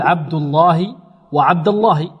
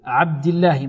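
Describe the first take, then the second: First: Thick, dark l of الله in عبد الله; heavy lam. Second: عبد الله as "abdillah" with thin l; thin the lam after kasra in عبد الله; light lam. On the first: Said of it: "تفخم". (تفخيم لام الله في عبد الله) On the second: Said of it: "وإذا كسرت ماذا تقول؟". (ترقيق اللام في عبد الله) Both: Shown as a demonstration.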